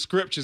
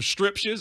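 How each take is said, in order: First: The word begins with an s-k-r sound. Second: The word begins with an s-t-r sound. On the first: The speaker calls it right. "He didn't call scriptures scriptures" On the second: The speaker calls it wrong. "He calls them striptures"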